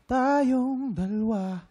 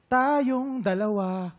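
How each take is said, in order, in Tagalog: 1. Pinapalambot ang mga tunog at bahagyang pinagsasama. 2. Bawat tunog ay binibigkas nang malinaw at buo. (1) "pwedeng tayong dalawa, ganun lang" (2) "masyadong literal na tumutunog bawat letra"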